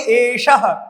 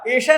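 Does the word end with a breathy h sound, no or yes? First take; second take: yes; no. First: The word ends with a breathy h sound. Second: The word ends on a plain vowel. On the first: The speaker calls it right. "विसर्ग का उच्चारण ह करते हैं" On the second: The speaker calls it wrong. "एषा नहीं बोलेंगे"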